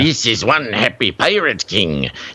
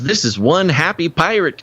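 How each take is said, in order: First: It is said in a put-on pirate voice. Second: It is said in his normal voice.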